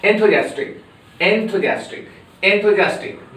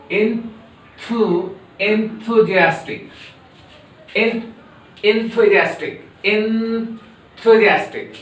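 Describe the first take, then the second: First: Enthusiastic at normal quick speed; brisk enthusiastic. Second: Enthusiastic drawn out slowly; slow, careful enthusiastic; slow model. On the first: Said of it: "but rapidly you should speak". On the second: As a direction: spell out enthusiastic syllable by syllable. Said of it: "Pronounce like me, but rapidly". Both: Shown as a demonstration.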